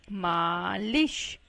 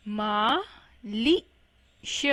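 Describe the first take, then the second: First: मालिश in one piece with a long maa; slow joined-up reading of मालिश, maaa-lish; blended whole word. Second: मालिश slowly split into maa, li, sha; slow spelling-out reading of मालिश in three parts; syllable by syllable. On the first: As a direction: join मालिश up slowly, stretching the first vowel. Then blends the word slowly. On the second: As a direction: sound out मालिश with gaps between syllables. Teacher sounds out word by syllables. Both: Shown as a demonstration.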